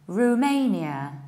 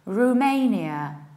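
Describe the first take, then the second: First: The first vowel is an 'oo' sound. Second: The first vowel is an 'oo' sound.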